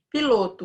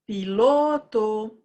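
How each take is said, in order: First: Said in the usual way. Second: Piloto with a long-held LO; loud sing-song Piloto, the middle syllable drawn out; calling the word. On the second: Shown as a demonstration. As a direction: call out PILOTO slowly, stretching LO. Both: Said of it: "Como que você chamaria o piloto?".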